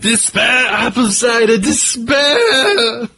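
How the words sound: It is read in a crazy put-on voice.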